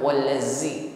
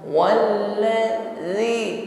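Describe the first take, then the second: First: The consonant is a hissing z sound. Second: The consonant is soft with no hiss. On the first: The speaker calls it wrong. "bukan wallazi" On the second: The speaker calls it right. "zi huruf zal tidak berdesis"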